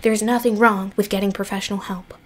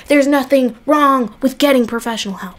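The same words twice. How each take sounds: First: Softer, quicker mumbled repeat; tossed off under the breath, fast; quiet fast aside. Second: Said in the usual way. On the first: Shown as a demonstration. To the viewers, a softer quick repeat of the advice. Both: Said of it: "repeated softer".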